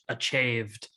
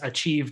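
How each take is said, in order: First: The stressed vowel sounds like ay. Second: The stressed vowel sounds like ee. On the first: "the last chorus it's achieved" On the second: "the first chorus it's achieved"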